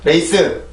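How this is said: The word is said with Korean-style syllables. The speaker calls it wrong. "절대로 레이스, 레이스 이런 발음이 아니라"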